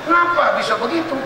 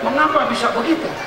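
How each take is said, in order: First: The first word is clipped to a short form. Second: The first word is said in its full form. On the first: It is casual local speech. "kalau Anda tinggal di Betawi, mau itu hilang, yang ada ngapa" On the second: It is polite standard speech. "kalau orang yang bahasa Indonesia Indonesianya sopan, pasti bilangnya begitu"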